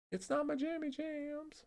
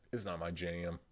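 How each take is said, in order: First: Much higher and slow, playful sing-song on jammy jams; silly high voice. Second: Said in the usual way. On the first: Pretend. Streamer to chat, repeating his phrase in a goofy high voice. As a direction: squeak it out like a cute joke.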